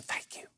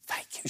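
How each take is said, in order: First: An unvoiced whispered thank you; a shy secret whisper of thanks. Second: A soft whispered thank you. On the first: Timid lady whispering her thanks to the pastor, unvoiced. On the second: Retold or imitated. Timid lady thanking the pastor in the maternity ward, whispered. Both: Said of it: "She whispered".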